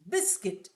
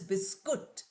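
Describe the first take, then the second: First: The second syllable has a short 'i' sound. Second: The second syllable has an 'oo' sound. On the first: The speaker calls it right. "C U I T is also pronounced as E" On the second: The speaker calls it wrong. "It's not pronounced as biscuit. Although oo sound is there in writing"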